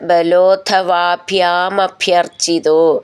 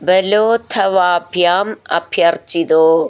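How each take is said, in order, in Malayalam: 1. രണ്ടു വാക്കുകളും ചേർന്ന് ഒന്നായി പറയുന്നു. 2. രണ്ടു വാക്കുകളും വേറെയായി പറയുന്നു.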